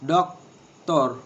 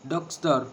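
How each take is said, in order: First: Doctor drawn out as doc-tor, first beat stressed; slower, syllables apart. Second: Said in the usual way. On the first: Shown as a demonstration. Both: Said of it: "And the two syllables".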